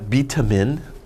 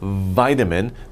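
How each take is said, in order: First: It is said with a Korean-style Konglish pronunciation. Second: It is said with a native English pronunciation. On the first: The speaker calls it wrong. "not vitamin. That's wrong" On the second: The speaker calls it right. "Say vitamin"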